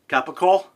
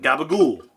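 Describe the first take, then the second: First: It is said with the standard pronunciation. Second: It is said with the New Jersey pronunciation. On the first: "the lunch meat called uh, capical" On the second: "we call it gabagool"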